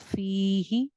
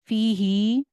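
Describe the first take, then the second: First: The first vowel is long, the second short. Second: Both vowels are held for the same length. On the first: The speaker calls it right. "फी या मद्दा ... ही जो है वो हाजिर ही ... तो कैसे बनेगा?" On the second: The speaker calls it wrong. "फी ही ऐसे पढ़ूं तो ठीक है? ... फी ही गलत है।"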